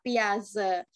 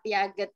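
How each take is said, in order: First: The name ends with a soft 'zhe' sound. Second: The name ends with a hard 'get' sound. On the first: This is the current way of reading it. The speaker calls it right. "piaget dibaca piaze" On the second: This is the older way of reading it. The speaker calls it wrong. "Kalau dulu kan uh, tulisannya piaget dibaca piaget"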